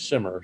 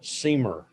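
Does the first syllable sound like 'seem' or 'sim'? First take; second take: sim; seem. First: The first syllable has a short 'i' sound. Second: The first syllable has a long 'ee' sound. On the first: The speaker calls it right. "the proper pronunciation of the word is Simmer" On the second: The speaker calls it wrong. "I used to call it Seamer"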